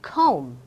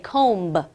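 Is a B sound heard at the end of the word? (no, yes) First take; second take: no; yes. First: No B sound is heard at the end. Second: A B sound is heard at the end. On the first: The speaker calls it right. "I just say comb" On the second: The speaker calls it wrong. "I don't say comb"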